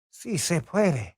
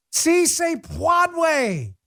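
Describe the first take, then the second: First: "puede" said properly as "pweh-deh", slowly; correct Spanish pronunciation. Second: "puede" mangled as "pwad-way", high and very drawn out; Jill Biden. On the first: Shown as a demonstration. Host showing the right Spanish, "puede" as a measured "pweh-deh". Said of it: "my Spanish is not very good". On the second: Retold or imitated. Host mocking a botched Spanish slogan, "puede" as a long high "pwad-way". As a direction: stretch "Si se puede" into a mock-botched "see say PWAD-way". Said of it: "that was, uh, Jill Biden".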